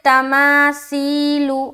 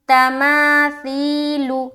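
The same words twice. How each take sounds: First: The middle consonant is a whistling, hissing s sound. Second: The middle consonant is a soft th without whistling. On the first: The speaker calls it wrong. "तो गलत है, हर्फ चेंज हो गया" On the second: The speaker calls it right. "नहीं ना आ रहा"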